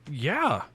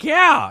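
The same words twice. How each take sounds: First: Said in the usual way. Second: Put-on high, loud kid's yelp; prepubescent squeal. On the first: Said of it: "And I just went". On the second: Excited child agreeing to a photo, prepubescent squeal. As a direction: imitate an excited boy's voice leaping up. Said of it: "little prepubescent hammer".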